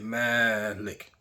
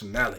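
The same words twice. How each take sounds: First: The first vowel is drawn out long. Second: The first vowel is kept short. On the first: It means owner. "that have a little floating alif by the side of the me" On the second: It means king. "if you take off that alif, which never was there"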